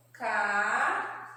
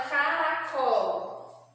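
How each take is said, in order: First: "Caracol" slowly split as ca-ra-col, long gaps between; three drawn-out, separate syllables in "Caracol". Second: Said in the usual way. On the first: Shown as a demonstration. Teacher separating a word for children, "Caracol" syllable by syllable. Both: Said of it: "nós vamos separar as sílabas".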